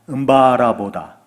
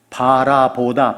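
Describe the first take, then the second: First: The first word starts with a nasal hum. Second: The first word starts with a plain b sound. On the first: "만약에 콧소리를 내면 음바요" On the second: "우리는 그게 없어요"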